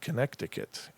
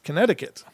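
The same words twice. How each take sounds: First: The middle c sound is pronounced aloud. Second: The middle c sound is left silent. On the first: This follows the spelling letter by letter. "but it's spelled Connecticut" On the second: This is how the name is normally pronounced. "It's Connecticut"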